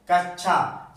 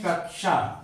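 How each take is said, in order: First: कक्षा said "kach-chha"; students' mispronunciation. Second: कक्षा said "kak-sha"; correct pronunciation. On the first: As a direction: replace the ksh in कक्षा with a doubled chh. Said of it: "कई students इसे छा". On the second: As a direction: sound both k and sh in कक्षा. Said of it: "जैसे हम पढ़ते हैं". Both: Shown as a demonstration.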